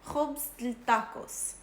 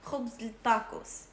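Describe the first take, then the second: First: The middle word is said shortened. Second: The middle word is said shortened.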